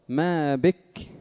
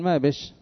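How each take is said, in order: First: The final sound is a plain k. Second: The final sound is an sh. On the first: "ويبدلون من الكاف التي يقفون عليها شينا" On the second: "يقولون ما بش"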